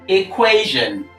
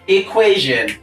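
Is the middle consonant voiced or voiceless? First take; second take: voiced; voiced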